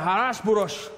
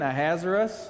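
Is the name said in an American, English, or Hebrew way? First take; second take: Hebrew; American. First: The name is said with harsh, throaty Hebrew sounds. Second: The name is said with an American accent. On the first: "the Hebrew version where you really have to spit every time" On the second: "Say it more American"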